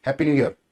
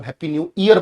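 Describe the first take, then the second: First: ईयर said "yur", with a y glide; correct pronunciation. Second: ईयर said "ee-ar", starting on a vowel; wrong pronunciation. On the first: Teacher corrects the new year greeting, y-initial. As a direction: start ईयर on a y consonant, not ee. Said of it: "ये वाला sound आता है". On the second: Teacher mimics the usual new year greeting, mispronounced. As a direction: drop the y glide at the start of ईयर. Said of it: "जबकि ईयर नहीं होता इसका sound". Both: Shown as a demonstration.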